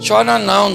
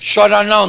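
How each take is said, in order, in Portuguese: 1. Soa monótono e meio solidário, sem vontade. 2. Soa confiante e triunfante. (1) "Ele poderia falar assim, ó" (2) "Sabe como ele falou? ... ele falou assim"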